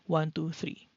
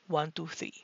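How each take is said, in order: First: The voice is processed to sound warmer and fuller. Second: The voice is processed to sound brighter and crisper. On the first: "microphone test with warm voice enhancer" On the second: "voice enhancer set to clear"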